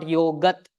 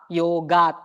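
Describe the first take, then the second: First: "yogat" with a short a, yo-gut; wrong short vowel. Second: "yogat" with a long open AA, yo-gaat; long second vowel. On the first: Teacher showing the mistaken form, "yogat" said as yo-gut. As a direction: clip the a in "yogat" to uh. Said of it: "It's not yogat". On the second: Teacher reading the diacritical mark, "yogat" said as yo-gaat. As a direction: stretch the a in "yogat" to aa. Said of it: "the way to call it as a". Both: Shown as a demonstration.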